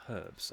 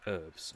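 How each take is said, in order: First: Herbs with the H clearly sounded; British herbs. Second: Herbs said as erbs, silent H; American herbs. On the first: Shown as a demonstration. Showing the British way to say herbs, H sounded. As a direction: breathe a firm H at the start of herbs. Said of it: "it's got a H in it". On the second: Retold or imitated. Imitating how Americans say herbs, silent H. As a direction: drop the H of herbs completely, erbs. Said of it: "they call it herbs".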